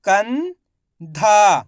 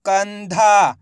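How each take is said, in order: First: कंधा in two parts, "कं" rising, pause, long "धा"; very slowly sound out कंधा piece by piece; split into syllables. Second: कंधा joined, long "धा" falling; blended whole word. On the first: Teacher breaking कंधा down for learners, syllable by syllable. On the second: Teacher showing learners the result, कंधा blended together. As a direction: say कंधा as one word without a break. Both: Shown as a demonstration. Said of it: "इनको आपस में मिला के पढ़ना है".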